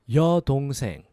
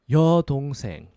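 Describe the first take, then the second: The two takes are said the same way.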